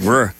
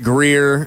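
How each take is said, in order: First: The word has almost no vowel, like grr. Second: The word has a clear full vowel. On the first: The speaker calls it right. "There are no vowels. It's a G-R-R sound" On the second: The speaker calls it wrong. "This is not Greer"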